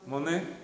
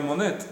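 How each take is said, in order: First: The final t sound is left silent. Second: The final t sound is pronounced. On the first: The speaker calls it right. "Se diría Monet. ... normalmente en francés no se pronuncia ... la última consonante" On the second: The speaker calls it wrong. "no se diría Monet"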